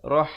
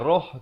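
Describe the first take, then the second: First: The vowel sounds like an open 'a'. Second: The vowel sounds like a rounded 'o'. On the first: The speaker calls it right. "Rah bukan roh" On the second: The speaker calls it wrong. "bukan roh"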